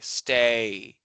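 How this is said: The vowel drags out with a glide.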